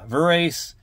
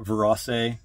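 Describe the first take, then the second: First: It is said without sounding like Versace. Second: It is said sounding like Versace. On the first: "Hopefully I'm pronouncing that right" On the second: "like Versace"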